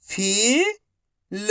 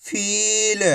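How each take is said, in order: First: Each syllable slowly held, first one rising. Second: Whole word in one go, vowels held; syllables joined. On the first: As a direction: break the word into long, separate syllables. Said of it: "एक अक्षर का उच्चारण करके". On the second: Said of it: "तो मिलके बन जाएगा". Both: Shown as a demonstration.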